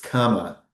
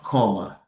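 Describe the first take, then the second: First: The first vowel sounds like 'a' in cama. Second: The first vowel sounds like 'o' in coma. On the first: The speaker calls it right. "it's comma" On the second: The speaker calls it wrong. "que elas pronunciem a vírgula como coma. But it's not comma"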